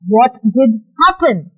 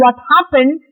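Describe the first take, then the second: First: "What did happen?" said slowly, weight on the action; emphatic question. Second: Said in the usual way. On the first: Shown as a demonstration. Teacher shows how to question two fighting kids, emphatic. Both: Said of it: "to give the emphasis on this action".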